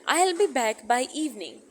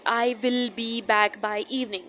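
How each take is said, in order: First: 'I will' is shortened to one syllable 'I'll'. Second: 'I will' is said as two full words. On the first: The speaker calls it right. "तो कितना अच्छा लग रहा है सुनने में।" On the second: The speaker calls it wrong. "सुनने में कितना अजीब लग रहा है।"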